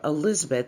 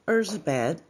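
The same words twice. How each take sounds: First: The name is said with an English pronunciation. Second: The name is said with a Hungarian pronunciation.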